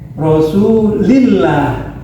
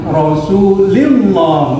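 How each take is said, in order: First: The l sound is light and thin. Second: The l sound is heavy and thick. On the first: The speaker calls it right. "dibaca tipis" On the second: The speaker calls it wrong.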